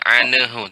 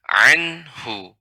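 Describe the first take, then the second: First: The n bounces with an added vowel after it. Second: The n joins smoothly into hu without vowel. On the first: The speaker calls it wrong. "bukan anahu" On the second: The speaker calls it right. "tapi anhu"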